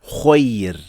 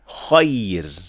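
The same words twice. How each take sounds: First: The first vowel sounds like a rounded 'o'. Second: The first vowel sounds like an open 'a'. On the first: The speaker calls it wrong. "not kho" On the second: The speaker calls it right. "we should say kha"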